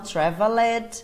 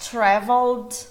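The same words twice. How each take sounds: First: An extra vowel is sounded before the final D. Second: It ends with only a D sound. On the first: The speaker calls it wrong. "e não traveled" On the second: The speaker calls it right. "só o som do D"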